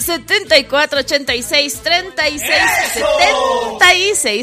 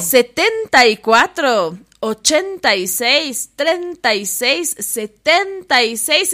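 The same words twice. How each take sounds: First: It is said briskly, with normal energy. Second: It is said softly and calmly, slowly.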